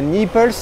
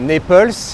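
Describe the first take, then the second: First: The name is said with a French pronunciation. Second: The name is said with an American pronunciation. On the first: The city in Italy is meant. The speaker calls it wrong. "et non pas à Naples" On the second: The town in New York is meant. The speaker calls it right. "Il faut faire très très attention à la prononciation euh, en américain"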